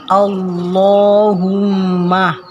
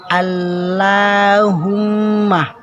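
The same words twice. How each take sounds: First: The L is pronounced heavy and dark. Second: The L is pronounced light and thin. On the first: The speaker calls it right. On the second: The speaker calls it wrong.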